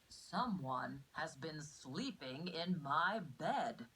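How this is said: It is said in a big, deep voice.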